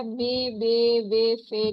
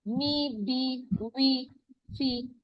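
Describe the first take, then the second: First: मे, बे, वे, फे slowly with a long e, the wrong way; wrong e vowels. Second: मी, बी, वी, फी slowly with a clear long i; correct i vowels. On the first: Teacher contrasting wrong vowels for the class. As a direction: drag out मे बे वे फे as the mistake. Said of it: "नहीं पढ़ना". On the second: Teacher modelling correct vowels for students. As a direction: stretch मी बी वी फी as the right model. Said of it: "इस तरह से पढ़ेंगे". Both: Shown as a demonstration.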